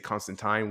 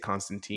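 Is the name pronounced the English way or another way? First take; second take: English; another. First: The name is said the English way. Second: The name is said the non-English way. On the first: "in English they they say Constantine" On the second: "we say Constantine"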